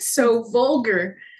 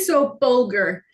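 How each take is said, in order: First: Vulgar begins with a V sound. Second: Vulgar begins with a B sound. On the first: This is the standard pronunciation. "instead of saying" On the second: This imitates a Spanish speaker's pronunciation. "Spanish speakers say you say be instead of V, like my mother says"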